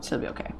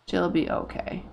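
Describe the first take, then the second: First: Whispered, unvoiced reassurance; whispering to herself. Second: Said in the usual way. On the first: Real, not acted. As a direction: breathe it out as a whisper.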